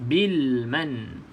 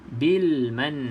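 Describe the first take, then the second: The two takes are said the same way.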